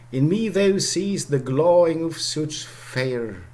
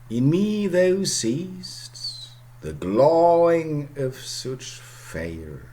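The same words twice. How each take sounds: First: The line is read at a faster pace. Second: The line is read at a slower pace.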